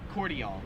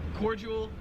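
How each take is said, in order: First: It is said with an Australian pronunciation. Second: It is said with an American pronunciation. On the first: "in Australia it's pronounced cordial" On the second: "in America we pronounce it cordial"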